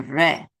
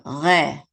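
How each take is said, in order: First: "re" with the R at the front of the mouth. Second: "re" with the R back in the throat. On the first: Teacher sets two traditions side by side, front R. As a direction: say "re" with a tongue R, not in the throat. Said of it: "traditions don't say it that way". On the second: Teacher sets two traditions side by side, guttural R. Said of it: "in the back of the throat". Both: Shown as a demonstration.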